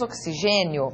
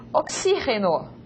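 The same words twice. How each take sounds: First: Oxigênio said the Portuguese way, "oksi-ZHE-nio"; Portuguese pronunciation. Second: Oxígeno with the stress on the xí and a Spanish j sound; Oxígeno said the Spanish way, "ok-SI-heno"; Spanish pronunciation. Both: Shown as a demonstration. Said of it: "Diferente de portugués".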